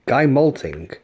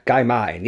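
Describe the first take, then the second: First: Guy Malting said as read; reading Malting off the screen; puzzled Guy Malting; misread name. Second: Guy Martin said with a clear Martin; correcting to Martin; confident Guy Martin; corrected name. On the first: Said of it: "Who's Guy Malting". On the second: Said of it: "you mean Guy Martin". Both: Real, not acted.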